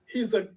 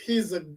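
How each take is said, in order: Both takes have the same delivery.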